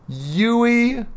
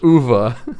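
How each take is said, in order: First: The name is said with English letter sounds. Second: The name is said the German way. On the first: The speaker calls it wrong. "instead they just pronounced every sound there" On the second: The speaker calls it right. "Uwe is how you say that first name"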